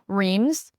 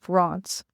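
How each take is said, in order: First: It is said with an English accent. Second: It is said with a French accent.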